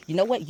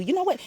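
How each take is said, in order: First: Said in the usual way. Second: Much higher, bright pop on what; sudden high nudge. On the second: Pretend. Intuition nudging the listener, popping up much higher. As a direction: jump way up in pitch to grab attention.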